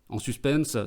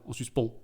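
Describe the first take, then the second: First: The word ends with an audible s sound. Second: The word ends without any s sound.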